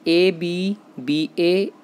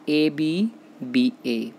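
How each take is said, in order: First: A B B A spelled out slowly, each letter apart, rising a little at the end; teacher slowly spelling A B B A for students to write down; slow dictation. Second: A B B A spelled slowly again, falling to close; teacher repeating A B B A slowly and finishing it off; slow settling repeat. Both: Shown as a demonstration. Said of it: "वो क्या बनता है?".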